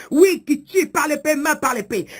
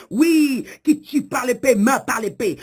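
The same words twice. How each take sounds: The two takes are said the same way.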